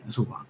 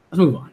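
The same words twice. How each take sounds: First: Much softer repeat. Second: Said in the usual way. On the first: Real, not acted. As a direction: drop it to a murmur, much softer.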